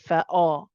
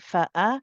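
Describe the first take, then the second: First: The hamza sounds heavy and dark. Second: The hamza sounds light and thin. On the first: The speaker calls it wrong. "they'll make the hamza heavy" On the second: The speaker calls it right. "rhyme your hamza with the fa, keep it light"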